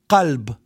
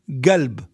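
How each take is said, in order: First: The word begins with a deep uvular q sound. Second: The word begins with a hard g sound. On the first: "So we have the word qalb" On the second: "And some area g"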